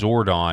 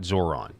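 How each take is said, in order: First: A d sound comes before the final syllable. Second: No d sound comes before the final syllable. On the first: The speaker calls it right. "Zordon, not Zoron" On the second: The speaker calls it wrong. "not Zoron"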